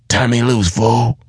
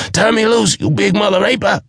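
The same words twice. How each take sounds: First: Raised, sharp "Turn me loose" cry; dwarf crying out to break free. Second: Dwarf screaming while being choked. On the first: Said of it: "he cried". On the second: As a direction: scream it in panic. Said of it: "he screamed". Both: A narrator's reading.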